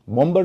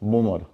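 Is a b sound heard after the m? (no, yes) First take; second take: yes; no. First: A b sound is heard after the m. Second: No b sound is heard after the m. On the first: The speaker calls it wrong. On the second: The speaker calls it right.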